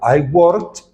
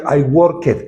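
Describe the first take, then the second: First: Worked is said as one syllable. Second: Worked is said as two syllables. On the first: The speaker calls it right. "la e no suena y solo pronuncias la d al final" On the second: The speaker calls it wrong. "No dirías I worked"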